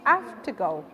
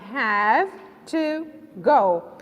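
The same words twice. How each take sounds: First: Have ends with a voiceless f sound. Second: Have ends with a voiced v sound. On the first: "So you produce it as it, if it is F" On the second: "If we produce them word by word"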